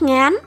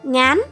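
First: The syllable is said on a rising tone. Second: The syllable is said on a rising tone.

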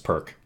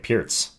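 First: It is said like the English word perk. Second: It is said unlike the English word perk. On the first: The speaker calls it wrong. "I thought it was Perk" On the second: The speaker calls it right. "that's the correct pronunciation of it"

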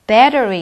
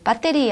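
First: The t is a soft r-like flap. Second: The t is a crisp, hard t. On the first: The speaker calls it right. "battery 이렇게" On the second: The speaker calls it wrong. "배터리 아니고요"

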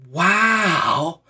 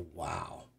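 First: It is said with lively excitement. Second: It is said flatly, without excitement.

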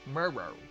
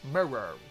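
First: The word is said with two syllables. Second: The word is said with two syllables.

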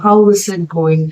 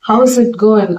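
First: How and is are said as separate words. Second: How and is are contracted into one syllable. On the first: It sounds stiff and formal. "ஸ்டிஃப்னஸா தெரியும்" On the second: It sounds casual and friendly. "ஷார்ட்டா சொன்னீங்கன்னா அது கொஞ்சம் கேஷுவலா ஃப்ரெண்ட்லியா"

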